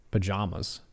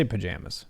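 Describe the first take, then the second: First: "Pajamas" with "jah" in the middle; broad second syllable. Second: "pajamas" with "jam" in the middle; own pronunciation. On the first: Quiz taker reading out an option, "Pajamas" as puh-JAH-muz. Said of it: "pronounce the second syllable of pajamas". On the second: Quiz taker giving their own version, "pajamas" as puh-JAM-uz. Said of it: "I say pajamas". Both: Shown as a demonstration.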